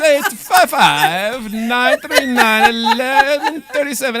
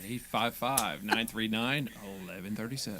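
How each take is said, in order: First: It is said in a Borat impression. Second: It is said in his normal voice.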